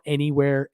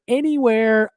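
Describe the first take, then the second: First: Said in the usual way. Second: "anywhere" jumps up high, stretched; exaggerated high "anywhere"; emphatic repeat. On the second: Real, not acted.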